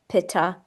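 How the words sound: It is said with an anglicized Western pronunciation. "In the West, we pronounce them"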